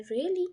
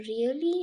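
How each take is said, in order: First: Really with a sharp upward rise; rising really. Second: Really said with a questioning rise; rising tone. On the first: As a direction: ask really in surprise, voice climbing. (really को ऊँचे चढ़ते सुर में) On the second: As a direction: lift really up at the end like a question. (really को सवाल की तरह ऊपर उठाकर) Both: Shown as a demonstration. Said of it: "ये थोड़ा सा राइजिंग टोन में आया है".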